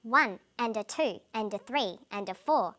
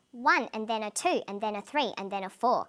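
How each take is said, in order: First: Even beats on the numbers, light quick "and a"; rhythmic count with "and a" unstressed; squeezed between beats. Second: Rhythmic count with hurried, unstressed "and then a"; more tightly squeezed. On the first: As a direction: stress ONE, TWO, THREE, FOUR, tucking "and a" between. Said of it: "less important words are squeezed in between the beats". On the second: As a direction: stress ONE, TWO, THREE, FOUR, cramming "and then a" between. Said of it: "The more squeezed in, the shorter they become". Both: Shown as a demonstration.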